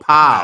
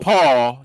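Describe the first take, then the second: First: The name ends with an open vowel. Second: The name ends with an L sound. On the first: The speaker calls it right. "but Pow" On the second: The speaker calls it wrong. "Not Paul, not Paul"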